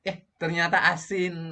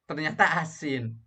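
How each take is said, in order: First: "Eh, ternyata asin" pitched up high with a playful gasp; a cook hamming up surprise to keep viewers relaxed. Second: Higher pitched, mildly surprised "ternyata asin"; lightly surprised cook finding the food salty; tasting surprise. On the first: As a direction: exaggerate the shock, playfully. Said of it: "biar tidak tegang". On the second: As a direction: react to the salty taste with a light start. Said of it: "Misalnya begitu dicicipin". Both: Shown as a demonstration.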